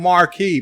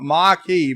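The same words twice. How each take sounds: First: Marquis with a clear R, "mar-kee"; R sounded. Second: Marquis as R-less "mah-kee"; R dropped. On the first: Host mocks viewers' correction, Marquis with the R in "mar-kee". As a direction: lean on the R in Marquis. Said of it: "but that's wrong". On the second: Host gives what viewers want, Marquis as "mah-kee". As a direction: open the first vowel of Marquis, no R. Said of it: "You want Marquis". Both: Shown as a demonstration.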